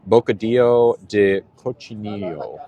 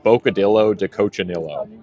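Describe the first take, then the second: First: It is said with a Spanish-style pronunciation. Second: It is said with an American accent.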